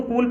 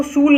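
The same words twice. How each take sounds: First: कूल with a hard K at the start; correct reading. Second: शूल with SH in place of K; wrong reading. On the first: Teacher showing learners how cool is read, hard-K pronunciation. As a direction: open कूल on K, long oo. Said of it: "इसको कूल पढ़ेंगे". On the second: Teacher showing learners how not to read cool, wrong SH reading. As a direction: misread cool as शूल, opening on SH. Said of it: "इसको शूल नहीं पढ़ेंगे". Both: Shown as a demonstration.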